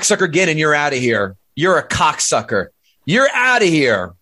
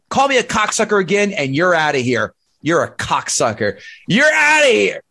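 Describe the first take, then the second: First: It is said flatly, without expression. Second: It is said with lively, expressive inflection.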